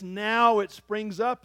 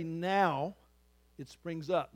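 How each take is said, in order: First: "Now it springs up" said slowly and louder, stretching "Now" with a rise; slow emphatic reading. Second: Said in the usual way. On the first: Shown as a demonstration. Pastor savoring a favorite verse, slow and emphatic. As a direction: lean into "Now it springs up," slowing down. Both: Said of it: "I love this".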